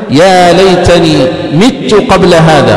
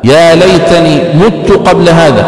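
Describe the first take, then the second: First: مت recited slowly as "mittu"; "mittu", i after the mim of مت; kasra reading. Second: مت recited slowly as "muttu"; "muttu", u after the mim of مت; damma reading. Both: Shown as a demonstration. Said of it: "بالكسر وبالضم".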